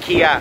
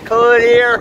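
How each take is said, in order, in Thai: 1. เสียง L หลัง K ถูกละไปครับ 2. K กับ L ควบกล้ำเข้าด้วยกันครับ (1) "ไม่ใช่" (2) "อ๋อต้องควบกล้ำครับ"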